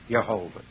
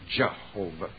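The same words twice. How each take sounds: First: The word begins with a Y sound. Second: The word begins with a J sound. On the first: The speaker calls it right. "but it's Jehovah" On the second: The speaker calls it wrong. "in the English we've added J on it"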